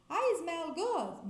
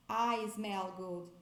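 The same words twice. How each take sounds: First: I smell good said as a flat statement, no question; marked wrong statement form of I smell good. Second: Said in the usual way. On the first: Shown as a demonstration. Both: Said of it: "não é".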